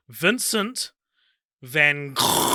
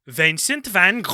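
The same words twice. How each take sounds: First: Vincent van Gogh with a hard English "Goff", said as an anglicised speaker would; his own pronunciation. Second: Slow mock Dutch accent on "Vincent van Gogh", vowels shifted; hammed-up Dutch take on the painter's name. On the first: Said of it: "This is how I pronounce it". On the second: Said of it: "That was my Dutch accent". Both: Shown as a demonstration.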